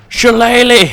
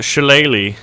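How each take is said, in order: First: Big playful shout, much higher; mock battle cry. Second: Said in the usual way. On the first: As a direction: belt it out like a war cry. Exclaims the missile's odd name. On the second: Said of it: "is that how you pronounce it".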